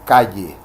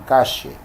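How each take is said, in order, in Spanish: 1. Se dice con un acento costero caribeño. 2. Se dice con un acento argentino. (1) "en el Caribe, en muchas eh, zonas costeras, por ejemplo, se dice" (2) "los argentinos dirían"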